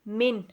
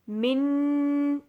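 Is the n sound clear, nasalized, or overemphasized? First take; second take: clear; overemphasized. First: The n sound is plain and clearly pronounced. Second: The n sound is pressed with too much force. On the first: The speaker calls it right. "हम इसको क्लियरली पढ़ेंगे" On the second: The speaker calls it wrong. "मिन होता है कि आप उस पर ज़्यादा ज़ोर दे रहे हो"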